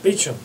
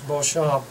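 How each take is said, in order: First: The name is said the English way, like Beecham. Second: The name is said the French way, like Beauchamp. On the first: "the English people pronounce it Beecham" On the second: "but in French it's Beauchamp"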